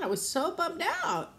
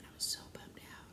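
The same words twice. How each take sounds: First: High, plaintive emphasis on "so bummed out"; exaggerated bummed-out whine; emphatic dismay. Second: Very soft, almost whispered; low-energy, barely voiced confession; subdued admission. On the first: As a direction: lament it, pitched way up. Repeats it with emphasis. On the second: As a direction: let it out under the breath. Repeats how bummed she was. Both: Real, not acted.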